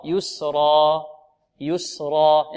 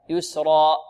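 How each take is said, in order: First: Slow "يسرا", last vowel fading out with open throat; open final alif. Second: "يسرا" with the final vowel cut by a glottal stop; wrong hamza ending. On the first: Teacher correcting the error, open-ended final alif. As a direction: hold the end of "يسرا" two beats, no glottal stop. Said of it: "الحلق يبقى مفتوح". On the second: Teacher showing the mistake, final alif closed with hamza. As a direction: end "يسرا" abruptly in a hamza. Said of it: "خطأ". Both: Shown as a demonstration.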